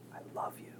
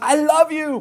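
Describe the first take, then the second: First: It is said softly, almost whispered. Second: It is said loudly, like a shout. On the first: The feeling is shared privately with one person. "that intimate moment where we say" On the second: The feeling is announced to everyone. "I want to shout it from the rooftops"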